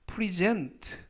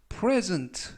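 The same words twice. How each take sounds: First: The stress is on the second syllable. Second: The stress is on the first syllable. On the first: It is the verb. "present라고 읽으면 동사가 되고요" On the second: It is the noun meaning a gift. "present 라고 하면 명사로서 선물이라는 뜻"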